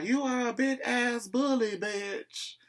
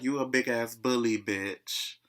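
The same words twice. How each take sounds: First: High-pitched mock country drawl; high, countrified mocking retelling. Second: Said in the usual way. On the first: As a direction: imitate her country voice, pitched way up. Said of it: "In her country voice".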